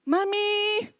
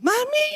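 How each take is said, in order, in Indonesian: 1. Panggilannya bervolume sedang. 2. Panggilannya lebih keras.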